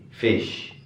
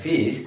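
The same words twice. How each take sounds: First: The vowel is a lax, lower short 'i' sound. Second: The vowel is a tense, long 'ee' sound. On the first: The speaker calls it right. "Kalau ini E" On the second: The speaker calls it wrong. "Bukan fish. Kalau fish, I ya"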